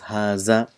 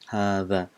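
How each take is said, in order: First: The middle consonant is a z sound. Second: The middle consonant is a th sound. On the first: The speaker calls it wrong. "In Urdu, it's pronounced as haza, which is wrong" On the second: The speaker calls it right. "it has to be the, in front of the teeth"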